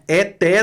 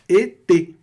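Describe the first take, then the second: First: The vowels are said open, not closed. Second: Both vowels are said closed and tight. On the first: The speaker calls it wrong. "Não é eté não" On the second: The speaker calls it right. "E fica tudo fechadinho"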